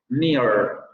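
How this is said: The final r sound is clearly pronounced. "van a pronunciar ese fonema vibrante al final de sílaba"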